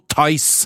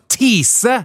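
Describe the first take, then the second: First: The word sounds like tice, not like tease. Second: The word sounds like the English word tease. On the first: The speaker calls it right. "det Thais du mener" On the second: The speaker calls it wrong. "du vet at det ikke heter Tease"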